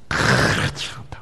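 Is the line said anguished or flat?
anguished. It is cried out with anguished, intense feeling. It is an impassioned plea from deep grief. The speaker calls it right. "부르짖으면서 뭐를 토하겠습니까"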